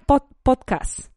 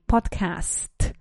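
First: The word ends without a final T sound. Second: The word ends with a clear final T sound. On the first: The speaker calls it wrong. "it's not a podcast" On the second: The speaker calls it right. "There is a final T"

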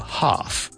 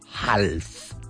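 First: The L sound is silent. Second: The L sound is pronounced. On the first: The speaker calls it right. "No, half" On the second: The speaker calls it wrong. "we don't ever say half"

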